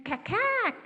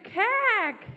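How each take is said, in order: First: High sharp cack-cack; magpie call. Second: High, loud cack-cack; magpie call. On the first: Shown as a demonstration. Storyteller shows the magpie's call to the children. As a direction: chatter like a magpie. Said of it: "Can you say". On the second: A narrator's reading. Magpie squawks back, high and loud. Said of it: "said the magpie".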